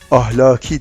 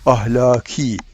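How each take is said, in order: First: The vowels are short, with no lengthening. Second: The vowels are lengthened, with a softened k. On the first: The speaker calls it wrong. "Mesela ahlaki demeyeceğiz" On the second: The speaker calls it right. "ahlaki diyeceğiz"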